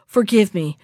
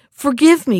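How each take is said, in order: First: Said in the usual way. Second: Higher and louder begging cry; a captured prince crying out to the witch for mercy; desperate plea. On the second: A narrator's reading. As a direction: beg for his life, voice rising. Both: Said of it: "cried the prince".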